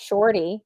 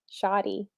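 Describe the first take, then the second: First: SHORTY with the R sounded; Shorty pronunciation. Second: SHAWTY with no R, softly offered; Shawty pronunciation. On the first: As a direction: say "Shorty" with a clear OR. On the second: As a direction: say "Shawty" with an open AW instead of OR. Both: Shown as a demonstration. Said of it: "it's not Shorty".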